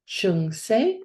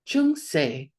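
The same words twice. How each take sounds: First: The word is said with a high tone. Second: The word is said with a low tone. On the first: The speaker calls it wrong. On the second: The speaker calls it right.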